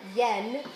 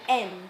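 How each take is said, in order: First: The word begins with a y sound. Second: The word begins directly with a vowel. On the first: The speaker calls it wrong. "when we pronounce it with that Y" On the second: The speaker calls it right. "but actually it's best read en"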